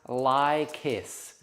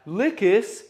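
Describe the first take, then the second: First: The first syllable sounds like 'lie'. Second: The first syllable sounds like 'lick'. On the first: "I think it's pronounced lie kiss" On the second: "someone's going to be like"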